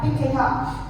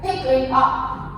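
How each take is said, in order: First: The words run smoothly together as one unit. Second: The words are said as separate units. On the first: "It will sound like" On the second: "linking with consonants like"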